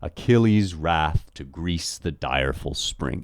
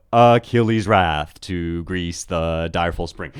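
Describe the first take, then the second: First: "Achilles' wrath to Greece the direful spring" in slow, even weak-strong beats; measured five-beat reading of "Achilles' wrath to Greece the direful spring", alternating light and stressed syllables; iambic scansion. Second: "Achilles' wrath to Greece, the direful spring" with long syllables slowly stretched; exaggerated, slow long-short chant of "Achilles' wrath to Greece, the direful spring"; Greek metre in English. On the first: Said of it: "you have unstressed and stressed". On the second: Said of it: "would have sounded something like". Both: Shown as a demonstration.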